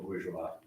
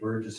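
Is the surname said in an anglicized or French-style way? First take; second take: French-style; anglicized. First: The name is said in French style, 'boor-zhwah'. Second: The name is said like English 'Burgess'. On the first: This is the proper original form of the name. "the proper pronunciation" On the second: This is how people have always known the speaker. "I always used to say Burgess"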